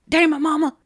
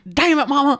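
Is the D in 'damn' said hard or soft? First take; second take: soft; hard. First: The D at the start is said softly. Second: The D at the start is hit very hard. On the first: The speaker calls it right. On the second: The speaker calls it wrong.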